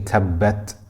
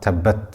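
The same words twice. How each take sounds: First: The 't' ends with a slight breathy release. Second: The 't' ends without a breathy release. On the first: The speaker calls it right. "we will continue the breath slightly, but the sound will not continue" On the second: The speaker calls it wrong. "not tabbat"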